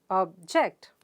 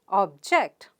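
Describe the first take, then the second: Both takes have the same delivery.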